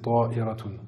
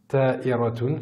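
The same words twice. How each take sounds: First: It starts with a heavy, emphatic t sound. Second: It starts with a plain, light t sound. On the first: The speaker calls it right. "la bonne orthographe c'est ta'iratun" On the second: The speaker calls it wrong. "c'est ce mot-là que j'avais prononcé"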